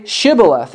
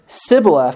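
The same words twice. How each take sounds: First: "Shibboleth" with an opening sh sound; correct sh pronunciation. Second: "Sibboleth" with a plain s at the start; mispronounced, s for sh. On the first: Shown as a demonstration. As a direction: say "Shibboleth" starting with a clear sh, as in ship. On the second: Retold or imitated. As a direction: say "Sibboleth" with s as in sip, the sh sound missing. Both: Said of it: "he could not pronounce it right".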